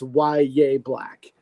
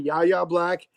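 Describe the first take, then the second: First: The name begins with a 'why' sound. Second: The name begins with a 'yah' sound. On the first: The speaker calls it right. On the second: The speaker calls it wrong.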